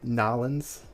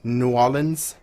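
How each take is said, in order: First: The name is clipped and run together. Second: The name is said in full, syllable by syllable.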